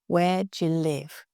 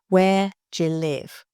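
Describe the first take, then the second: First: 'Do you' is reduced and linked into 'je'. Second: 'Do you' is reduced and linked into 'je'.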